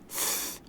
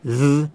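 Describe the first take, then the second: First: The th sound is voiceless, without vibration. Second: The th sound is voiced, with vibration. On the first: "Th is not voiced" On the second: "Th is voiced"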